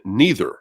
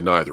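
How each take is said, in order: First: The first syllable sounds like nee, rhyming with breather. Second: The first syllable sounds like nye, not rhyming. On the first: It is chosen to make a rhyme. "I had to say it to rhyme" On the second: It is the speaker's usual pronunciation. "I would normally say neither"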